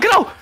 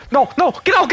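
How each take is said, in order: First: High panicked shout; panicking gamer. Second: Urgent rising plea; tense, higher, pushing them to flee; panicking gamer. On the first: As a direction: yell it sharply, much higher. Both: Real, not acted. Teammate being hunted, urging.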